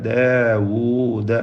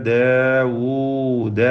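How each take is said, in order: Both takes have the same delivery.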